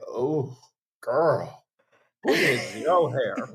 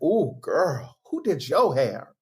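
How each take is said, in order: First: Put-on lower, slow judging ooh-girl; same compliment turned into a dig; shady judgment. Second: Put-on admiring ooh-girl compliment; impressed compliment. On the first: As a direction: drag it out, a week-later side-eye. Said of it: "it's like". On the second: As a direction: gush over the new hairdo. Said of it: "they're like".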